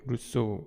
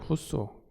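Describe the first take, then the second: First: The name begins with an R-like sound. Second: The name begins with an H-like sound. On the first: "우리가 루소라고 부르긴 하는데" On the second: "원래 후소. 그러니까 R이 H 발음이 나요"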